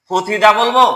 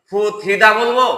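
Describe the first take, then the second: The two takes are said the same way.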